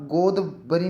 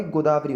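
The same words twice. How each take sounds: First: गोदवरी without long "aa"; wrong pronunciation. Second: गोदावरी with long "daa"; correct pronunciation. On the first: Teacher shows students the error, mispronounced. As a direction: say गोदवरी as "god-va-ri". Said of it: "गोदवरी नहीं होता भाई". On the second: Teacher corrects it for students, careful pronunciation. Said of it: "गोदावरी होता है". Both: Shown as a demonstration.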